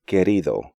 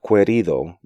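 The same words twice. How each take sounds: First: The u is silent after the k. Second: The u is sounded after the k. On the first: The speaker calls it right. "U is silent in these sequences" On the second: The speaker calls it wrong.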